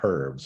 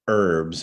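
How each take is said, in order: First: The word begins with an audible H sound. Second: The word begins without an H sound. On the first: This is how other dialects say it. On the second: This is how Americans say it.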